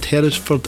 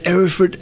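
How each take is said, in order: First: The opening h sound is pronounced. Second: The opening h sound is dropped.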